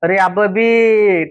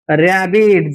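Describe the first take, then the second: First: The b sound is said twice. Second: The b sound is said once. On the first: The speaker calls it wrong. "रॅबबीट असेल का? तर नाही" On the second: The speaker calls it right. "रॅबिट असा त्या शब्दाचा उच्चार होणार आहे"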